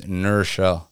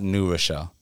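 First: The W is dropped, run together as one word. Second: New is said fully with its W glide. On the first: The speaker is a local New Yorker. The speaker calls it right. "You don't say the W, it's Nurchelle" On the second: The speaker is not from there. The speaker calls it wrong. "It's not New Rochelle"

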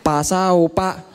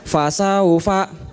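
First: The word is said with P sounds. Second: The word is said with F sounds. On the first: The speaker calls it wrong. "Orang Sunda gak bisa ngomong F" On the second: The speaker calls it right. "ini fa bukan pa ya"

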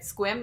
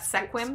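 First: The name is said as one syllable. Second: The name is said as two syllables. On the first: The speaker calls it right. "I think that's how you say it, right?" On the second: The speaker calls it wrong.

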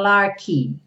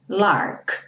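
First: An extra vowel sound follows the final K. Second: The word ends cleanly on the K sound. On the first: The speaker calls it wrong. "cuidado para não falar larky" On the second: The speaker calls it right. "O K somente termina essa palavra"

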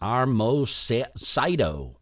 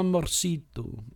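First: The r comes before the m. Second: The r comes after the m, lightly tapped. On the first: The speaker calls it wrong. "they'll say, armocito" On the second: The speaker calls it right. "you say it quickly, and it's almost like you don't even roll"

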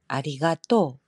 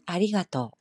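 First: It uses the Kansai pattern, rising at the end. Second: It uses the standard Tokyo pitch pattern. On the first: "칸사이 쪽 아리가또. 아무래도 뒤쪽이 많이 올라간 느낌" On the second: "표준어는 아리가또"

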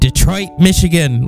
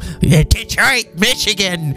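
First: It is said in a plain, ordinary voice. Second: It is said in a gruff, crusty voice.

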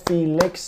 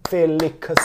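First: It is said plainly with two syllables. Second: It is said in a Chinese accent, with extra syllables. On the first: "two syllables" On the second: "if you pronounce it in a Chinese accent"

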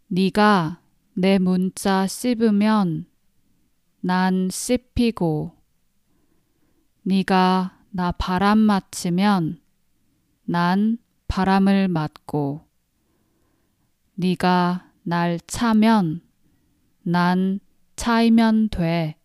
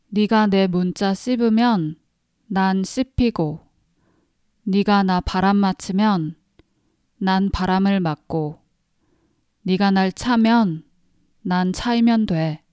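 First: It is said slowly. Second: It is said at normal speed.

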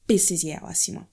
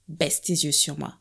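First: It is said angrily in Haitian Creole. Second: It is said in standard French.

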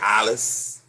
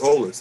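First: The name is said as 'Alice'. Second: The name is said as 'Olas'. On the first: The speaker calls it wrong. "they already mispronounced my last name" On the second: The speaker calls it right. "it's supposed to be [name]"

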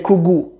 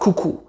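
First: The second consonant is a g sound. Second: The second consonant is a k sound. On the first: The speaker calls it right. "They say kugu. The second k turns into a g" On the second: The speaker calls it wrong. "Somali doesn't say kuku. It's a bit harder to say kuku"

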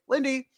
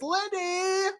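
First: It is said flatly with little energy. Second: It is said loudly with big energy.

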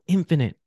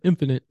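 First: It is said with heavy, weighty emphasis. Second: It is said casually and offhandedly.

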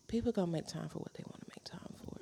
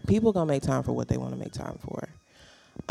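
First: It is said at normal volume. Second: It is said louder.

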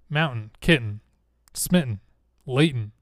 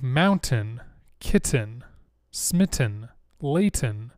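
First: The T sounds are dropped, Utah style. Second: The T sounds are clearly pronounced.

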